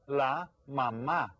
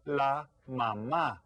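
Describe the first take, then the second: First: Slow repeat of La mamá; Spanish word repeated. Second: Slow, clear la mamá; Spanish word. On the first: Teacher repeats the word for kids, slow pronunciation. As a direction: repeat La mamá slowly for the class. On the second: Teacher models a Spanish word for kids, slow careful pronunciation. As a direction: model la mamá slowly, stress on the last syllable. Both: Shown as a demonstration. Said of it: "En español es".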